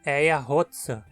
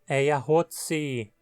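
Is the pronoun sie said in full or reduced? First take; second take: reduced; full. First: The pronoun is reduced to a bare s sound. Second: The pronoun is said fully with its vowel.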